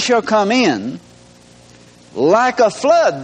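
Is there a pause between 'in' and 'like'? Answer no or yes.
yes. There is a pause after 'come in'. The Spirit of the Lord comes like a flood. "Let's punctuate it this way"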